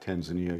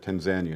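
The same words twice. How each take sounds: First: It uses a non-local, outsider pronunciation. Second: It uses the local Tanzanian pronunciation. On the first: The speaker calls it wrong. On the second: The speaker calls it right. "that's how they pronounce it there"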